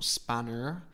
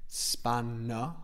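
First: An R sound is heard at the end. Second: No R sound is heard at the end. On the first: The speaker calls it wrong. "we don't pronounce the R. It's not spanner" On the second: The speaker calls it right. "Open mouth"

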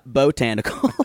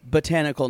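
First: The stress is on the first syllable. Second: The stress is on the second syllable. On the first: The speaker calls it wrong. "not botanical. ... You said like Bojangles" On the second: The speaker calls it right.

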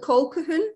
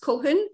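First: The middle 'q' sound is pronounced. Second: The middle 'q' sound is silent. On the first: The speaker calls it wrong. "It looks like Colquhoun" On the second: The speaker calls it right. "the Q is obviously silent in it"

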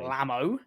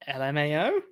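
First: It is pronounced as a single word. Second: Each letter is spoken separately. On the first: The speaker calls it wrong. "You don't say, say Lamo" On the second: The speaker calls it right. "Just say the letters"

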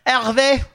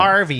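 First: The name is said with a French accent. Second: The name is said with an English accent.

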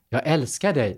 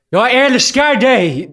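First: It is said quietly and intimately. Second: It is shouted loudly.

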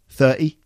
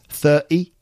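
The two takes are said the same way.

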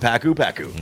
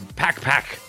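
First: A u vowel is sounded after each pak. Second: No vowel is sounded after each pak. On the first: The speaker calls it wrong. "I think I'm saying it wrong" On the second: The speaker calls it right. "I don't think you pronounce the U"

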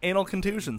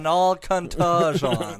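First: It is said at normal speed. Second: It is said very slowly.

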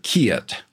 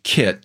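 First: The vowel glides into a drawled diphthong. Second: The vowel is a short, single plain sound. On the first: "the vowels tend to become diphthongs ... you'll often hear kit" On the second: "instead of kit"

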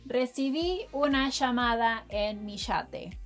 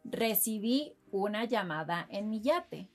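First: It is said with an Argentinian accent. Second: It is said with a general Spanish accent.

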